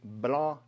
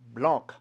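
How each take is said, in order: First: The final consonant is silent. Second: The final consonant is pronounced. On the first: The speaker calls it right. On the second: The speaker calls it wrong. "not blanc"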